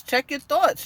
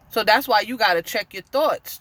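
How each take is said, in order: First: "Check your thoughts" repeated higher, with weight on "thoughts"; emphatic repeat. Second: Said in the usual way. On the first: Real, not acted. Preacher urging the viewers to guard their minds, emphatic higher repeat. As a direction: press "thoughts" home, pitched up, as a warning.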